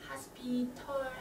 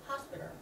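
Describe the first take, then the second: First: The t is a clear, crisp t sound. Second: The t is a soft l-like flap. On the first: "hospital하고 말씀을 많이 하신데" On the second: "T가 리을, 한국 리을 자음으로 자음 리을 발음으로 바꿔서"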